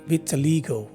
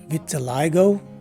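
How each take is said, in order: First: The third syllable has an 'ee' vowel. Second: The third syllable has an 'eye' vowel. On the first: "it's a long E in the second variation" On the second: "It's a long I in the first variation"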